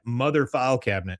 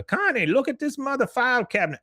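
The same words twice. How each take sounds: First: Said in the usual way. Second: Con's voice. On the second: Retold or imitated. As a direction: shout it to Connie way up high. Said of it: "he says".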